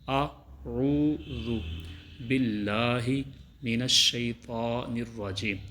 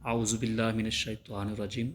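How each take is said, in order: First: The phrase is recited slowly and carefully. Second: The phrase is recited quickly and hurriedly. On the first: The speaker calls it right. "बल्कि" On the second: The speaker calls it wrong. "ऐसे नहीं"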